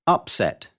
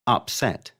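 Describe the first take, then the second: First: UP-set, first syllable stressed. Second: Up-SET, second syllable stressed. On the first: Teacher showing the noun, Upset stressed on UP. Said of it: "stress is on the first syllable". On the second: Teacher showing the verb, upset stressed on SET. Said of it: "second syllable when it is a verb". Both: Shown as a demonstration.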